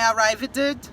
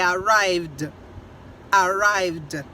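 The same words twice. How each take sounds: First: ARRIVED with an extra syllable, "a-rai-ve-ded"; wrong pronunciation. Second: ARRIVED in two slow syllables ending in a plain d; correct pronunciation. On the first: Teacher showing learners the mistake in arrived, mispronounced with extra -ed syllable. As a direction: say "arrived" wrongly, sounding out a separate -ed ending. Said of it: "não é arrived". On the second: Teacher modeling arrived for learners, slow and correct with final d. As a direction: model "arrived" slowly, just a d at the end. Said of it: "é arrived". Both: Shown as a demonstration.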